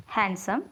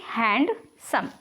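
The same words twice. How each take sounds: First: Said in the usual way. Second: handsome broken slowly into two pieces, hand, then सम; handsome drawn out as two separate syllables; split into syllables. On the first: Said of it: "दो टुकड़े करने पड़ रहे हैं". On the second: Shown as a demonstration. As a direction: say handsome very slowly, with a break before सम. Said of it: "इसको बोलने के लिए मुझे दो बार ऐसे दो टुकड़े".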